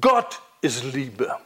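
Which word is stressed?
Gott. The stress falls on the word Gott. God defines what love is. The speaker calls it right. "Du musst das betonen"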